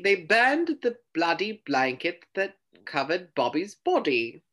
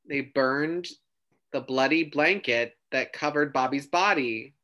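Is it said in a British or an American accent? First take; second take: British; American. First: It is said in a British accent. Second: It is said in his usual non-British accent.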